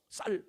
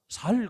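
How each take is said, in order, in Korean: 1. 이 단어는 된소리 s로 시작해요. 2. 이 단어는 예사소리 s로 시작해요. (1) "쌀 되지요 저는" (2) "쌀 못하고 뭐라고 얘기해요? 살 그러잖아요"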